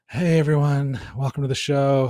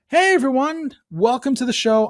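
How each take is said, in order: First: It sounds bored and unenthusiastic. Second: It sounds excited and smiling.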